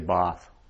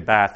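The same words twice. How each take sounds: First: The vowel is a long broad A. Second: The vowel is a short flat A. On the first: This is how southern English speakers say it. "he'd say it with a long" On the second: This is how northern English speakers say it. "I would say it with a short A"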